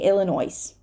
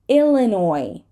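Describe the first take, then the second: First: The final S is pronounced. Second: The final S is silent. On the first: The speaker calls it wrong. "We're not going to say Illinois" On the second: The speaker calls it right. "silent S"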